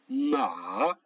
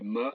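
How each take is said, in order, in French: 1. Le ton descend bas puis remonte. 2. La syllabe est courte et légère, sans contour. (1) "Le troisième ton qui descend et qui monte" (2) "cinquième ton, neutre"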